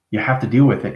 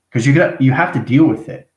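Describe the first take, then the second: First: Said in the usual way. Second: Pushed up higher and louder to drive it home; emphatic, louder. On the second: Real, not acted. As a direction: insist on it firmly. Repeats the advice with emphasis.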